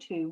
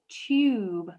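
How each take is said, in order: First: The vowel is a plain 'oo' sound. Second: The vowel is a 'yoo' sound. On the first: The speaker calls it wrong. "we wouldn't say tube" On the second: The speaker calls it right. "we actually pronounce it tube, like in huge"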